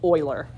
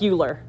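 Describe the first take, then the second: First: The name is said the way natives say it. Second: The name is said the way its letters suggest. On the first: This is how it is said where he came from. "where he was from, it's pronounced differently" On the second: This is how the name looks in writing. "it looks like Euler"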